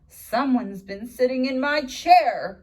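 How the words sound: It is said in a low, grumbling voice.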